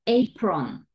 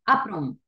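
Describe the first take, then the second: First: "apron" as eyy-pron, long first vowel; correct long A. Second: "apron" mispronounced as ah-pron; wrong short A. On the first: Teacher showing what we do say, "apron" as eyy-pron. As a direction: stretch the ey that opens "apron". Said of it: "decimos apron". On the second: Teacher showing what we don't say, "apron" as ah-pron. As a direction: start "apron" on a brief open ah. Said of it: "No decimos apron". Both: Shown as a demonstration.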